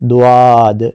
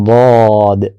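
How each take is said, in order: First: It has a rounded 'w' glide before the vowel. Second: It has a full, heavy vowel without any glide. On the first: The speaker calls it wrong. "ऐसे वाव के साथ नहीं पढ़ना" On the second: The speaker calls it right. "पुर करके, मोटा करके, मगर सीधे मुंह के साथ"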